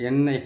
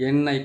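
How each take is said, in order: Both takes have the same delivery.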